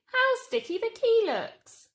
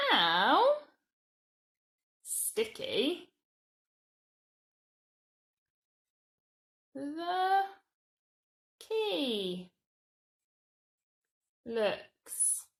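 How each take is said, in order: First: Much higher and louder, full of disgust-tinged wonder; exclaimed. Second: Each word spaced out slowly for writing; slow word-by-word dictation. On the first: Teacher exclaiming the sticky key sentence to children. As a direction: really exclaim it. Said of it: "it's an exclamation sentence". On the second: Teacher dictating the how sentence to children, slow and spaced. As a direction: dictate it one word at a time. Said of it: "start with how". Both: Shown as a demonstration.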